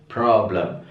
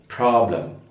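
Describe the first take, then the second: No difference in how they are said.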